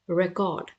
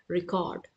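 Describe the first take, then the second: First: The stress is on the first syllable. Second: The stress is on the second syllable. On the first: It is used as a noun. "if it is used as a noun ... then it will be pronounced as re, record" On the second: It is used as a verb. "if it is used as a verb ... then we will pronounce it as record"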